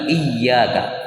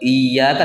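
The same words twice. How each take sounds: First: The y sound is clearly doubled and held. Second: The y sound is short and single. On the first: The speaker calls it right. "tapi iyyaka. Ya-nya tasydid jelas" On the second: The speaker calls it wrong. "Bukan iyyaka"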